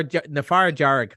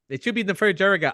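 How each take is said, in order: First: "far jarg" said short, slow, as the film has it; anglicised. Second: "far jarga" with the final vowel sounded; correct Irish. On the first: Retold or imitated. Mocking the film's Irish, short far jarg. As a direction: clip "far jarg" without the final vowel. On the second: Shown as a demonstration. Correcting the film's Irish for the host, far jarga.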